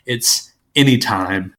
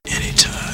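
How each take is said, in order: First: Slowly drawn-out Anytime; drawn-out name. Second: Anytime said breathless and unvoiced; whispered name. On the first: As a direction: stretch the word Anytime long and slow. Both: Shown as a demonstration. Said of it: "the kind of colloquial term for".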